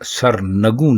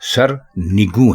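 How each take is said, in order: First: The vowel after the N is 'a'. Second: The vowel after the N is 'i'. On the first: The speaker calls it wrong. "दुरुस्त लफ्ज सरनगू नहीं" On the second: The speaker calls it right. "बल्कि सरनिगू है"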